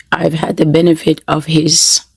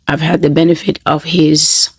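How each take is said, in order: Both takes have the same delivery.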